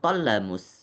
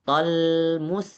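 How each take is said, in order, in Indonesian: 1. L memantul dengan vokal pendek tambahan. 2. L berhenti tanpa bunyi vokal tambahan. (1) "bukan tollamus" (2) "Tapi tolmus"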